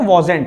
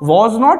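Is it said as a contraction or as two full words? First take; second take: contraction; two words. First: It is said as one contracted word. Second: It is said as two full separate words. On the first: "इसका एक contracted form है" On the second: "या फिर आप बोल सकते हो वॉज नॉट"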